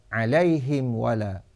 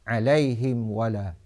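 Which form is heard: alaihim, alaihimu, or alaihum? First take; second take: alaihim; alaihim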